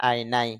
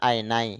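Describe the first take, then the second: Both takes have the same delivery.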